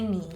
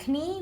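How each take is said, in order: First: Said in the usual way. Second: Knee said as k-nee with a hard k; wrong knee, k-nee; k sounded. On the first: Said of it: "we say knee". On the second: Shown as a demonstration. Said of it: "We don't say knee".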